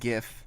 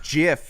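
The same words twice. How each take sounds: First: The first consonant is made in the throat. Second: The first consonant is made in the mouth. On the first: "You're definitely in the back of the throat with GIF" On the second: "you really have to do some work with the mouthal region"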